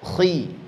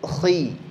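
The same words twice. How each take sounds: The two takes are said the same way.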